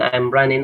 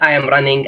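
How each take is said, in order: First: I am is contracted to a short I'm. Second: I am is said as two full words. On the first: The speaker calls it right. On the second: The speaker calls it wrong.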